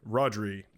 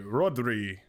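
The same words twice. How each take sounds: First: Said in the usual way. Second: Rodri said with a rolled Spanish-style r, ROH-dree; accented Rodri. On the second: Shown as a demonstration. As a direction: give Rodri a foreign flair, trilling the r in Rodri. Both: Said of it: "I always put an accent on it".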